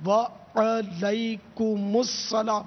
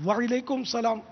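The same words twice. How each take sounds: First: Very slow وعلیکم with a long open wa-a and the ain with zabar; correct pronunciation. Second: وعلیکم said as wail-ekum, glided wa-i; wrong pronunciation. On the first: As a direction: model وعلیکم السلام syllable by syllable. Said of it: "درست اس کا تلفظ ہے". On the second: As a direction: show the faulty وعلیکم as a warning. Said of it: "یہ بھی غلط". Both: Shown as a demonstration.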